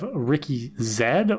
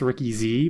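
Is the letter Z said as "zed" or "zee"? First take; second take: zed; zee. First: Z is said "zed", the Canadian way. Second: Z is said "zee", the American way.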